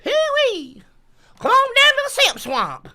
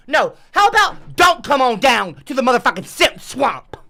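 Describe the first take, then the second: First: High, swooping Southern holler. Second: Loud, irritated counter to the invitation; sarcastic anger. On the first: Guide calls tourists to Simp Swamp, high whooping holler. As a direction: holler a backwoods welcome. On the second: Streamer retracts the swamp invitation, loud and irritated. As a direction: throw the invitation back angrily. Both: Acted.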